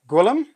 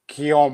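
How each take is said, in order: First: The name is said with a hard Gw and L. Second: The name is said French-style with silent L's. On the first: The speaker calls it wrong. "sorry if I'm pronouncing your name wrong" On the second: The speaker calls it right. "So all the L's are silent"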